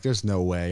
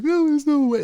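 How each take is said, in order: First: Said in the usual way. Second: Buddy's squeaky-high protest, imitated; high-pitched mock disbelief. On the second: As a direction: mimic a kid piping up from the backseat, very high and loud. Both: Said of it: "he had this high-pitched voice".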